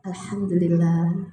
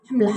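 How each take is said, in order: First: It is said slowly, with deep feeling. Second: It is said mechanically, without feeling.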